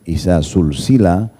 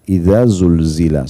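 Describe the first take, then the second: First: The words use hissing voiceless s sounds. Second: The words use voiced dh and z sounds. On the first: It can mean being joined in a chain. The speaker calls it wrong. "kita bacanya pakai sin" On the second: It means when the earth is shaken violently. The speaker calls it right. "zal ... zainya itu lidahnya bergetar"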